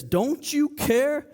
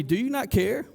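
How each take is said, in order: First: Slow, drawn-out mock reproach, pitched up; indignant interruption. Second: Said in the usual way. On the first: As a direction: stretch out an accusing question. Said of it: "She interrupts Jesus". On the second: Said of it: "she says in verse forty".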